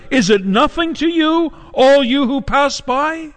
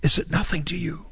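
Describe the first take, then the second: First: High-pitched, drawn-out outcry to passers-by; anguished cry. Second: Much softer, subdued question; hushed repeat. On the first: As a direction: cry it out high, as a pleading question. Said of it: "at the top of her lungs, she cries out". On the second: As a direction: drop to a quiet, searching plea. Same cry repeated, hushed, after pause. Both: Acted.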